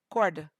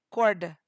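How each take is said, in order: The two takes are said the same way.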